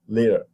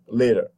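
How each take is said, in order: First: The middle consonant is a short voiced tap. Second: The middle consonant is a short voiced tap.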